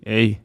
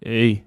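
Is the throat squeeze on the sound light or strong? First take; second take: light; light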